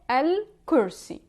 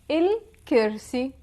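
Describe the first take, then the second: First: It begins with an 'al' sound and has 'ur'. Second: It begins with an 'il' sound and has 'ir'. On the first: "in the Modern Standard Arabic, you would say" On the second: "In the Levantine dialect, we would say"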